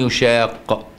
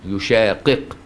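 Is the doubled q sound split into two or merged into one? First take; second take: merged; split. First: The q sounds are merged into one long q. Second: Two separate q sounds are heard at the end. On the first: "وبالإدغام يشاق" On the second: "يشاقق قفين كده"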